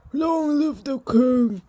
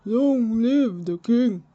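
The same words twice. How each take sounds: First: Slow, loud ceremonial cry, higher; proclaiming shout. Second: Slow, loud ceremonial cry; proclaiming shout. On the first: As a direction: call it out to the whole room. Courtiers proclaim new king. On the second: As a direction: proclaim it again, louder and slower. Repeated proclamation, corrected. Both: Acted.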